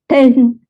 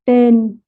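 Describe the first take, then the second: First: The t is released with a puff of air. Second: The t is released without a puff of air. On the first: "for T sound in English, you say" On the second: "in Vietnamese we just say"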